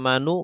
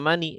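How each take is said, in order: First: The word ends in a u vowel. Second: The word ends in an i vowel. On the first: "tidak manu"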